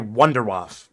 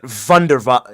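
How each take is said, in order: First: The word starts with an English W sound. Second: The word starts with a German V sound. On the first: It is said the plain English way. The speaker calls it right. "just say Wunderwaffe like a normal person" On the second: It is said the German way. The speaker calls it wrong. "I'm not calling it Wunderwaffe. Ew, ew"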